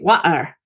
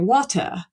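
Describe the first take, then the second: First: It is said in a Cockney accent. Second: It is said in a Southern British accent. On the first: "In um, Cockney, you say" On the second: "standard Southern British, you say"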